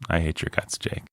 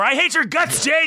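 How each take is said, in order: First: The line is said quietly and simply. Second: The line is yelled loudly.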